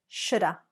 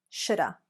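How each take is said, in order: The two takes are said the same way.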